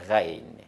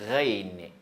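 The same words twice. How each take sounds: Both takes have the same delivery.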